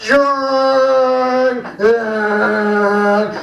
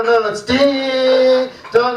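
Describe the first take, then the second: First: Sung, mock kids' off-key dong; sung, two flat dongs like bored children; kids singing wrong. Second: Slow, careful ding dong; corrected ding dong. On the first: Kids singing only the wrong word. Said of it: "And the kids go". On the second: Retold or imitated. Choir teacher showing the right words slowly. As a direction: spell out ding dong for the kids. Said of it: "No, no, no, close".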